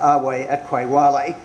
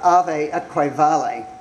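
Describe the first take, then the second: First: The V is pronounced as a W sound. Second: The V is pronounced as a V sound.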